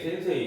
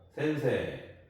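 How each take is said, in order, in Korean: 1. 이 단어는 'ei' 글라이드로 끝나요. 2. 이 단어는 긴 'e' 모음으로 끝나요. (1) "센세이 이렇게 발음하면 안 되고" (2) "세를 한 번 더 발음한다고 생각하시면 돼요"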